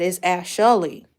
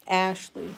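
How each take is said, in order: First: Ashley stretched slowly into three syllables, ash-a-ley, with a louder push; childish three syllables. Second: Said in the usual way. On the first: Retold or imitated. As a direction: imitate her younger self saying Ashley as ash-a-ley. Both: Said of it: "Ain't it three syllables".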